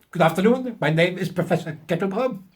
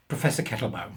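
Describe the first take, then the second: First: Higher, louder hammed-up German accent; mock German professor. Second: Said in the usual way. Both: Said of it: "of German extraction".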